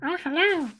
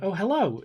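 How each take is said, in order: First: It is said at a higher pitch. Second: It is said at normal pitch.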